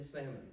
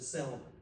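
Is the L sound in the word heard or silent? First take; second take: silent; heard. First: The L sound is silent. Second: The L sound is pronounced. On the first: The speaker calls it right. "The L is silent in salmon" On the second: The speaker calls it wrong. "somebody in their life that pronounces it salmon"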